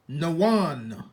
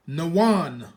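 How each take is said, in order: First: It is said as two syllables. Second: The same.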